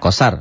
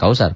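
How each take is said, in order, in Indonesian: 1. Vokal pertama itu vokal tunggal. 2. Vokal pertama itu diftong meluncur. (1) "Kosar, bukan kausar" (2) "bukan kausar"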